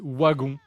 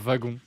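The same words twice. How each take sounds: First: The first sound is said the Belgian way. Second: The first sound is said the French way. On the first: "Ils disent wagon" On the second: "et pas wagon"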